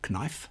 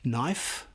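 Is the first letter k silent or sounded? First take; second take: sounded; silent. First: The word starts with a sounded k. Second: The word starts with a plain n sound. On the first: The speaker calls it wrong. "not knife" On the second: The speaker calls it right. "like knife"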